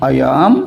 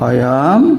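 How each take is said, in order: The two takes are said the same way.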